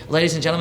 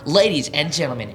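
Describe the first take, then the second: First: It is said in a plain conversational voice. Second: It is said in a deep, booming announcer voice. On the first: People tune it out as normal talk. The speaker calls it wrong. "I used to do that" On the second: People stop and pay attention. The speaker calls it right. "It's like an announcer voice"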